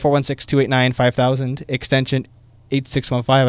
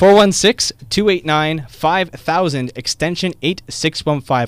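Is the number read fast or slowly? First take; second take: fast; slowly. First: The number is read quickly. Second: The number is read slowly.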